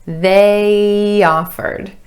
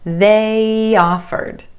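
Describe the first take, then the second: First: The two words are joined by a Y glide. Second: The two words are joined by a Y glide.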